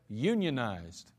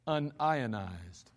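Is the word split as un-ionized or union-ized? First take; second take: union-ized; un-ionized. First: It is said as union plus ized. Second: It is said as un plus ionized. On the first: It refers to workers joining a labor union. "the labor-conscious plumber, he's going to pronounce the word as" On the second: It refers to something not being ionized. "But a chemist would probably say"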